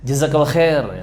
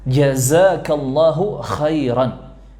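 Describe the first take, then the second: First: It is rushed, with syllables dropped. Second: Every syllable is said fully and clearly. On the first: The speaker calls it wrong. "sambil rusuh ya... jadi kayak gitu" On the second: The speaker calls it right. "harus dibaca dengan benar, dengan fasih"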